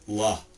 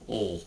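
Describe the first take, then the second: First: The consonant is followed by an extra vowel. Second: The consonant is said alone with no vowel. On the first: The speaker calls it wrong. "not L, because L is two sounds" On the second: The speaker calls it right. "his sound is L"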